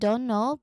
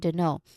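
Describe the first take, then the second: First: Both words are said fully and clearly. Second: The words are squeezed into "dunno." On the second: "becoming the know"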